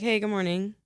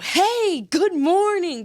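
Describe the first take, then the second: First: It is said small and natural, like real life. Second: It is said big and projected, filling a room.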